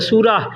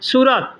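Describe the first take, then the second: First: The word ends with an h sound. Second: The word ends with a t sound.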